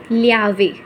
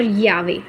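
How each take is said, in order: First: ल्यावे with a ly sound. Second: यावे with a plain y sound. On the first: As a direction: say ल्यावे, ly at the start. (ल्यावे, ल्य की आवाज़ के साथ) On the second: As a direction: say यावे, y at the start. (यावे, य की आवाज़ के साथ) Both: Shown as a demonstration. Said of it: "दो तरीके से प्रोनाउंसिएशन".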